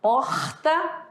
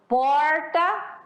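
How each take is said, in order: First: Porta said pɔtɐ, R dropped; another R variant. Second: Porta with a curled retroflex R. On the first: Teacher shows a fourth way of saying porta. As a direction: porta with no R sound. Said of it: "quatro formas". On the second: Teacher demos the retroflex R in porta. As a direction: say porta, tongue curled back on the R. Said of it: "esse R foi retroflexo". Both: Shown as a demonstration.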